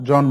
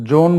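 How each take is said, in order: First: জন as "jɔn", open ɔ; correct open vowel. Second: জন mispronounced "jon" with rounded o; wrong o vowel. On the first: Teacher telling students what we say, open-vowel জন. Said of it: "বলি". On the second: Teacher rejecting a form for students, o-vowel জন. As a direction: close the vowel of জন to o. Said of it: "বলি না". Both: Shown as a demonstration.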